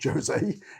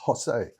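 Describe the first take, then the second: First: The name begins with a J sound. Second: The name begins with an H sound. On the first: The speaker calls it wrong. "it's not Jose" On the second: The speaker calls it right. "the J is pronounced more like a, an H"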